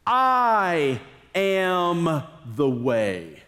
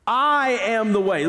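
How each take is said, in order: First: Very slow, weighty declaration of I; solemn emphasis. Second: Said in the usual way. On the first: Shown as a demonstration. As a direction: lay each word down slowly and gravely. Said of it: "Jesus answered".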